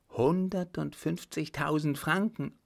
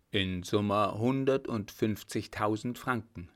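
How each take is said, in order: First: "Hundertundfünfzigtausend Franken?" echoed higher in stunned disbelief; shocked disbelief. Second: Said in the usual way. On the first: A narrator's reading. Widow hearing the sum she supposedly owes, shocked echo. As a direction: repeat the sum as if it can't be true, voice rising. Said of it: "rief sie".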